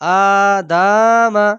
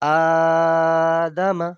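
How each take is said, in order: First: Every vowel in the word is drawn out. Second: Only the first vowel is drawn out. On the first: The speaker calls it wrong. "যদি সব টান দিয়ে পড়ি আ দামা তাহলে ভুল হচ্ছে" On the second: The speaker calls it right. "শুদ্ধ কোনটা হবে? আদামা"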